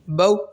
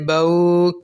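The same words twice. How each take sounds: First: The syllable is cut off with a sharp jerk. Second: The syllable is stretched out long. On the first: "ये मैंने आपको पढ़ के बताया कि झटका इस तरीके से दिया जाता है" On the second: "ना ही इसको खींचेंगे"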